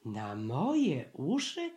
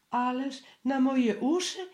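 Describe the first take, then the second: First: Said in the usual way. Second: High, louder, faltering question; high flustered stammer from a scared piglet. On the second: A narrator's reading. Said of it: "wyjąkał znowu".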